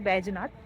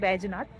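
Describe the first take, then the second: First: The name is said as Baijnath. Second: The same.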